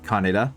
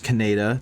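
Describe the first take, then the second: First: It is pronounced differently from the dub version. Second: It is pronounced the way the dub said it. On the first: The speaker calls it right. "not Kaneda" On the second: The speaker calls it wrong. "in the original dub it was Kaneda"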